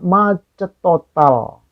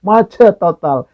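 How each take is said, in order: First: Slow drawn-out. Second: Laughing. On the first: Shown as a demonstration. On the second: Real, not acted.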